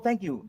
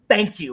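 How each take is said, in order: First: It sounds warm, effusive and sincerely grateful. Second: It sounds curt, sarcastic and snide. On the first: The speaker truly appreciates the favor. "You're not like, oh, thank you" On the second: The speaker thinks it was overdue. "Anita sounded snide when she said that"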